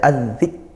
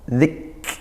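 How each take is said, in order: First: The k is pressed firmly without any breathy hiss. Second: The k is pressed, then released with a breathy hiss. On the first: "Kalau tekan saja az-zik" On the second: "kemudian desiskan"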